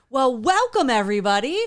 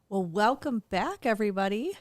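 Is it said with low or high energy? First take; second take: high; low. First: It is said with high energy. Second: It is said with low energy.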